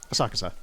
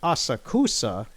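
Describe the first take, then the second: First: The u after the k is dropped. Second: The u after the k is fully pronounced. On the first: The speaker sounds like a local. The speaker calls it right. "just minus the u that's in the word" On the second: The speaker sounds like a tourist. The speaker calls it wrong. "if you say Asakusa, you're gonna look like a tourist"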